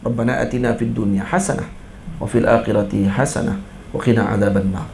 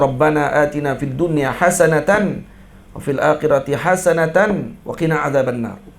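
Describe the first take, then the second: First: Hasanah is cut short, ending in h. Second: Hasanah is said with its full ending, hasanatan. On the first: "boleh jadi dibaca dengan waqaf" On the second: "doa tu kena baca bagi penuh lah baris"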